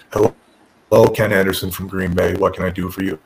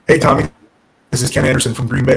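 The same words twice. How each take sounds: First: Super monotone, low-pitched deadpan; Tommy Dreamer. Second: Said in the usual way. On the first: Retold or imitated. Boss answering a caller from Green Bay, super monotone. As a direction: imitate an unexcited man answering the phone in a low monotone. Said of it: "This super monotone voice".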